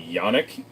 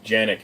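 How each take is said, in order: First: The name begins with a Y sound. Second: The name begins with a J sound. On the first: The speaker calls it right. "the J in Turkish is Y, so Yannick" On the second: The speaker calls it wrong. "I heard people say Janik"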